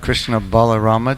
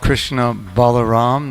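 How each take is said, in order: First: The name ends with an extra a vowel. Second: The name ends on the consonant m. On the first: The speaker calls it wrong. "not the Krishna Balarama temple" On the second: The speaker calls it right. "It's called the Krishna Balaram"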